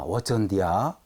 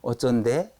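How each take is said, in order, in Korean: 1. 방언 말투이다. 'diya' 소리로 끝난다. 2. 표준어 말투이다. 끝이 평범한 'de'로 끝난다.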